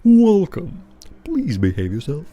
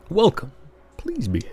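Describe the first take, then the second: First: Troll bouncer voice. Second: A first rough pass at the bouncer; tentative doorman greeting; first try troll bouncer voice. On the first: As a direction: play the hulking troll at the door. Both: Shown as a demonstration. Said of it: "What kind of voice should you give him?".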